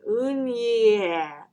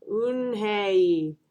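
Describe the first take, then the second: First: "Eunhye" garbled slowly as "oon-yeh"; drawn-out "Eunhye" with a "yeh" ending; trying the name. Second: "Eunhye" stretched as a clean "oon-hay"; slow and clear. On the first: Classmates attempting "Eunhye", slowly mangled to "oon-yeh". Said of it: "Everyone tried to say it". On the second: Eunhye teaching classmates "Eunhye", slow clear "oon-hay". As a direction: say "Eunhye" clearly, both syllables drawn out. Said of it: "said her name again slowly and clearly". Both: A narrator's reading.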